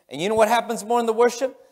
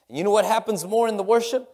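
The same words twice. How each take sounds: The two takes are said the same way.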